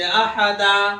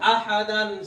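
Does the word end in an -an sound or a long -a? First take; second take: long -a; -an. First: The word ends with a long -a sound. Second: The word ends with an -an sound. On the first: The reader stops on this word. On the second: The reader carries on without stopping.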